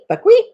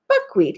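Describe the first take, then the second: First: The pitch goes up on the call. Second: The pitch goes down on the call. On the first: It is the female guinea fowl call. "a female call for a guinea fowl is buckwheat" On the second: It is not the female guinea fowl call. "the influx was down, not up"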